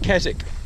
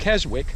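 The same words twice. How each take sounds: First: It is pronounced the way locals say it. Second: It is pronounced letter by letter as spelled. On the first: "the English people pronounce it Keswick" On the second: "It's spelled Keswick"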